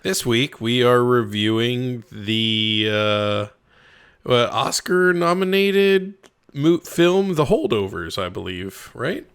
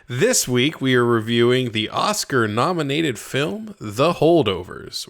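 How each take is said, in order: First: It is said hesitantly and unsure. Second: It is said confidently and firmly.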